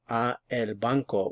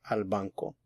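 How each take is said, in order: First: A and el are said as two words. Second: A and el merge into one syllable. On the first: The speaker calls it wrong. "Instead of saying" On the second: The speaker calls it right. "we say"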